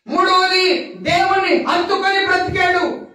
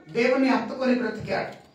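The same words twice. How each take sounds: First: Said in the usual way. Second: Soft echo. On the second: Acted.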